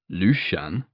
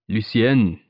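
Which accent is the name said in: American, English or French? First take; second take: American; French. First: The name is said with an American pronunciation. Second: The name is said with a French pronunciation. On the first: The speaker calls it wrong. "as the Americans would have it" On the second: The speaker calls it right. "He said it perfectly, too, with the half-swallowed softness of the final syllable"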